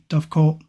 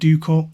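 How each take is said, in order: First: It is said the English way, dovecot. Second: It is said the Scottish way, doocot.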